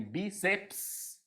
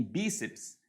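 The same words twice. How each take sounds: First: "bíceps" broken into pieces, with the final "ps" hissed separately; over-separate "bíceps", dragging out the end consonants; syllables split apart. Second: Said in the usual way. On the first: Shown as a demonstration. Teacher shows how nobody would pronounce it, "bíceps" artificially split. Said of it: "Ninguém vai pronunciar, separar a sílaba".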